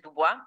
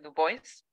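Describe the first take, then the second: First: The name is said with a French pronunciation. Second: The name is said with an anglicized pronunciation. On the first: "es el francés Dubois" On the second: "él pronunciaba su propio nombre Du Bois"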